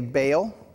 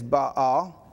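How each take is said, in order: First: The word is said as one syllable. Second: The word is said as two syllables. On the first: The speaker calls it wrong. "We say Baal" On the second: The speaker calls it right. "the correct pronunciation is Baal. ... It's actually two syllables"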